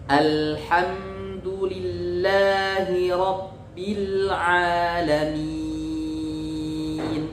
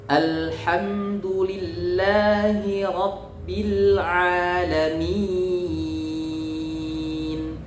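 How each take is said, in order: The two takes are said the same way.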